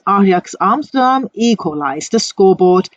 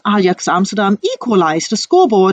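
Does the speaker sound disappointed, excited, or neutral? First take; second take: disappointed; excited. First: It is said in a disappointed tone. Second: It is said in an excited tone. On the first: "they show their disappointment for that" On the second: "they are quite excited to speak out this sentence"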